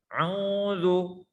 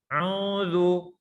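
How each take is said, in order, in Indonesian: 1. Suara keluar melalui hidung. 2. Suara keluar melalui hidung.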